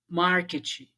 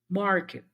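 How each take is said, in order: First: An extra i vowel follows the final consonant. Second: The word ends on a muffled consonant. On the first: The speaker calls it wrong. "você toma o vício de acreditar que a pessoa vai falar daquele jeito" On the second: The speaker calls it right. "o nativo ele vai falar"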